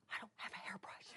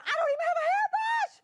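First: Hushed, voiceless aside; tiny helpless whisper; whispered objection. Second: High-pitched, fast squawk; hammed-up frantic complaint; exasperated outburst. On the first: Retold or imitated. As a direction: whisper it as a private thought. Acted thought answering God. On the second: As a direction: blurt it out loudly in protest. Acted outburst at God.

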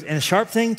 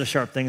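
First: Put-on pitched up high like an eager toddler; a small boy, wide-eyed with wonder; excited child voice. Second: Said in the usual way. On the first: Son asking dad about the knife, in a high excited child voice.

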